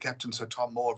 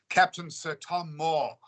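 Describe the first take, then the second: First: It is said at a fast, hurried pace. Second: It is said at a slow, unhurried pace.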